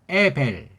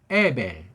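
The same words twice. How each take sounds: Both takes have the same delivery.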